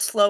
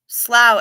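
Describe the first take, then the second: First: The vowel rhymes with go. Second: The vowel rhymes with cow. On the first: The speaker calls it wrong. "not slow as in grow" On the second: The speaker calls it right. "it's pronounced slough as in plow"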